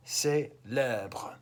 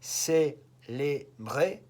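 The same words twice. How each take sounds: First: "célèbre" with the second E opened to "eh"; accent grave pronunciation. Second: "Célébrer" with closed "ay" sounds on each E; accent aigu pronunciation. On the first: French teacher showing how the accent changes, open-E "célèbre". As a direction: say "célèbre" in two parts, closed "ay" then open "eh". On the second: French teacher showing how the accent changes, slow closed-E "Célébrer". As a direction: say "Célébrer" very slowly, syllable by syllable, closed E. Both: Shown as a demonstration. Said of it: "Look at how the accent on the E changes".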